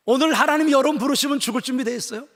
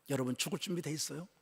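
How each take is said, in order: First: Much louder and higher, a ringing challenge; booming sermon question, rising at the end; loud preaching. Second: Much softer, a hushed question to the congregation; soft searching question to the church. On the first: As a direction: call it out to the whole room. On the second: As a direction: ask it quietly, almost privately. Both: Acted. Sermon question asked twice.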